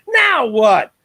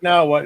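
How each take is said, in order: First: Loud, drawn-out show-title call; imitating John. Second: Said in the usual way. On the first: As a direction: belt out the title slowly like the co-host. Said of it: "John would say it like that". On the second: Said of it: "I always say it wrong".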